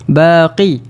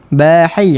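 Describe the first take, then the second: First: The middle consonant is a deep back q. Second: The middle consonant is a soft breathy h. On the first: "Kalau terlebih pula, ... Huruf qaf" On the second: "kadang-kadang dia akan bunyi huruf ha. ... Dia tak sampai"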